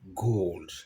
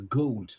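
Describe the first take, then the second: First: The vowel is a long steady O. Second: The vowel glides as a diphthong. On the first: "la prononciation américaine, c'est plutôt gold... un O qui est long" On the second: "la prononciation british... il y a plutôt une petite diphtongue, il va dire gold"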